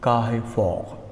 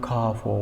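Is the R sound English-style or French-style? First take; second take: French-style; English-style. First: The R sounds are pronounced French-style. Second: The R sounds are pronounced English-style. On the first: The speaker calls it right. "When it is pronounced in French, it is Carrefour" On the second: The speaker calls it wrong. "It is not Carrefour"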